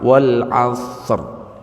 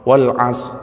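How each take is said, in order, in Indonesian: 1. Bunyi r di akhir dibaca. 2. Bunyi r di akhir dihilangkan.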